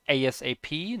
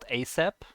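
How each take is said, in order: First: Each letter is said separately. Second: It is said as a single word. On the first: The speaker calls it right. "initialisms where you say each letter by itself" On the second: The speaker calls it wrong.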